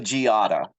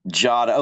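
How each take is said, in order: First: The name has three syllables, with the i sounded. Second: The name has two syllables, no separate i. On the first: The speaker calls it wrong. "I was totally going to mess that up" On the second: The speaker calls it right. "we don't pronounce the I in the name"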